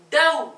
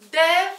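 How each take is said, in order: First: Dev with a pressed, forced v; dev, push the v hard. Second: Dev with a relaxed, easy v. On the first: Teacher showing the pressed v meaning ayran, pressed. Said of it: "baskıladığım zaman ayran oluyor". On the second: Teacher showing the plain v to students, relaxed. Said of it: "rahat şekilde". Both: Shown as a demonstration.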